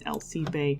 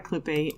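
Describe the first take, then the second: First: The name sounds like 'al-see-pee'. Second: The name sounds like 'a clip'. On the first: The speaker calls it right. "Her name is Alcipe" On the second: The speaker calls it wrong. "whose name I was saying incorrectly forever, it's not a Clippe"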